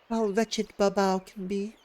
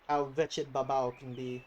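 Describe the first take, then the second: First: It is said in a put-on feminine voice. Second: It is said in his normal voice.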